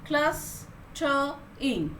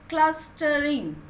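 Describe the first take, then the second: First: Clustering stretched very slowly, each syllable held apart; syllables drawn out. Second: Clustering at a slow, even pace; said slowly. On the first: Teacher counting syllables aloud, clustering drawn out very slowly. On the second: Teacher to pupils, says Clustering slowly. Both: Shown as a demonstration. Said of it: "So with three syllables".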